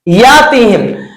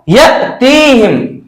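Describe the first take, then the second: First: The first vowel is drawn out long without catch. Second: A sharp glottal catch follows the first syllable. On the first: The speaker calls it wrong. "मैंने यातीहिम नहीं कहा" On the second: The speaker calls it right. "मैंने यहां पर या को झटका दिया"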